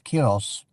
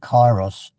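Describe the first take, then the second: First: It is said with the Greek pronunciation. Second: It is said with the English pronunciation. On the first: "the Greeks have a word, I think it's pronounced as kyros" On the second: "I think in English a lot of would would say it's kairos"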